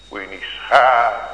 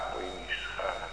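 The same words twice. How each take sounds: First: Louder emphatic call, falling on schamen; urging louder. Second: Much softer repeat, dropping away; soft echo. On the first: Preacher urging the congregation not to be ashamed, louder. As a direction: press the word schamen out firmly. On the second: Preacher echoing his plea to the congregation, much softer. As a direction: let the words fall to a hush. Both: Real, not acted.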